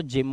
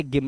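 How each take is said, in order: First: जिम begun with a soft 'j' sound; teacher models जिम with 'j', not hard 'g'; correct pronunciation demo. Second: गिम begun with a hard 'g'; teacher's wrong example गिम, 'g' as in gas; deliberate misreading. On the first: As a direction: say जिम as English "gym". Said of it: "जी के बाद Y है". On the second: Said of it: "इसे गिम नहीं पढ़ते". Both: Shown as a demonstration.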